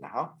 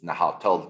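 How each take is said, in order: First: The word ends without any 'tl' sound. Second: The word ends with a clear 'tl' sound. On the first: The speaker calls it right. "you don't pronounce the T L at the end" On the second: The speaker calls it wrong. "That's how it's spelled"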